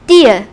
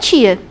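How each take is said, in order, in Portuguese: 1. Fala-se do jeito nordestino brasileiro. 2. Fala-se do jeito sudestino brasileiro. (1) "se a gente for mais para o Norte e para o Nordeste" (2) "aqui no Sudeste, por exemplo, a gente fala tia"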